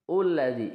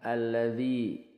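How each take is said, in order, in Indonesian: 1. Kata ini diawali vokal u. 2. Kata ini diawali vokal a. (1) "jadi bukan ulladzi" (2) "hamzah wasalnya dibaca fathah"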